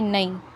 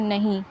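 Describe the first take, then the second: First: The middle h sound is dropped. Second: The middle h sound is pronounced. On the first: This is the Khari Boli form. "खड़ी बोली में बोलेंगे तो वो कहेंगे" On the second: This is the Urdu form. "हम उर्दू में हम बोलते हैं"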